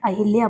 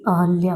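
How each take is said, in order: First: An 'i' vowel follows the first syllable 'Ah'. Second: No 'i' vowel follows the first syllable 'Ah'. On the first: The speaker calls it wrong. "उच्चारण ही गलत करते हैं" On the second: The speaker calls it right. "सही अहल्या होता है"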